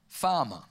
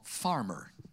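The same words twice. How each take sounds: First: The word is said in a non-American accent. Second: The word is said in an American accent.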